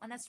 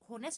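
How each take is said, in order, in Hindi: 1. यह शब्द स्वर ध्वनि से शुरू होता है। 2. यह शब्द एच ध्वनि से शुरू होता है। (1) "इसको ऑनेस्ट पर्सन" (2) "इसको होनेस्ट नहीं बोलेंगे"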